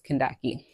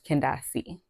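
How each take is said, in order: First: The last syllable starts with a k sound. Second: The last syllable starts with an s sound. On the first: This is the name's original form. "the actual pronunciation" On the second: This is the family's version of the name. "the pronunciation that my mom gives me or gave me"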